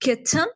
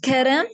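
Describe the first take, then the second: First: It is said in a British accent. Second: It is said in an American accent. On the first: "come to the British accent" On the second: "American accent में"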